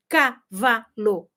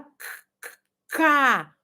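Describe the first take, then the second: First: "cavalo" said slowly, split into separate syllables ca-va-lo. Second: "c-, c-, cavalo" starts on the bare k sound twice, then the whole word; sounding out the phonemes. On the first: Teacher showing parents the wrong syllabified way, slow and chopped. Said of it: "Mas não se fala assim". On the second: Teacher showing parents the right sound-by-sound way, isolating the first sound. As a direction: tap the lone k sound, then land on "cavalo". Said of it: "Se fala o som". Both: Shown as a demonstration.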